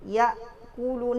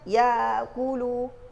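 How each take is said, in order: First: The consonant is stopped short with no flowing sound. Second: The consonant sound flows and is drawn out longer. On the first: The speaker calls it right. "yang pendek durasinya" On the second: The speaker calls it wrong. "Enggak boleh kita ucapkan ya kulu. Mengalir durasi"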